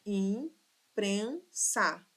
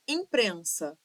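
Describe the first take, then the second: First: Imprensa sílaba por sílaba. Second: Said in the usual way. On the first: Shown as a demonstration. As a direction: break imprensa into three slow syllables. (imprensa silabada, com pausas) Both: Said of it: "Três sílabas".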